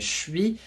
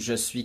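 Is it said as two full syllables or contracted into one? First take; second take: contracted; full. First: It is contracted into one short syllable. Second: Two full syllables are said, je and suis. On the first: "qui devient je suis" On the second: "je suis qui devient"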